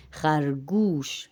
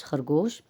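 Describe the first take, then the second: First: خرگوش drawn out slowly with a long oo, "khargoosh"; Persian pronunciation. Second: Said in the usual way. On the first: Shown as a demonstration. Teacher shows Urdu speakers the Persian vowel, careful pronunciation. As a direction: model خرگوش slowly with oo, not o. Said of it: "فارسی میں او کے آواز کے ساتھ". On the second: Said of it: "کو او کے طرح پڑھتے ہیں".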